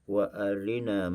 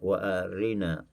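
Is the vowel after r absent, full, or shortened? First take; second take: shortened; shortened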